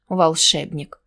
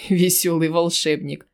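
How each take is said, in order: First: Said in the usual way. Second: Mocking laugh through the words. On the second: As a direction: chuckle out Весёлый волшебник. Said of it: "рассмеялся гнусавый". (со смешком)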